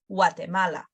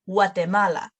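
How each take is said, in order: First: It begins with a W sound. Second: The same.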